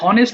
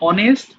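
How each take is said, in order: First: The word starts with an h sound. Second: The word starts with a vowel sound. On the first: The speaker calls it wrong. "হনেস্ট বলবা না" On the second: The speaker calls it right.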